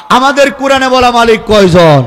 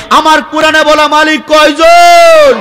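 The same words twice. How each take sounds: First: Said in the usual way. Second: Higher, louder and slow crowd question; preacher demanding a loud answer; loud slow call. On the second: Shown as a demonstration. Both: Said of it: "জোরে বলেন".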